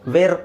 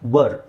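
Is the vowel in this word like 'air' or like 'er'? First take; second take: air; er. First: The vowel sounds like the one in 'air'. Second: The vowel sounds like the one in 'her'. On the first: The speaker calls it wrong. "ವೇರ್ ಅಲ್ಲ" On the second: The speaker calls it right. "ಇಲ್ಲಿ ವ ಅಂತ ಹೇಳಬೇಕು"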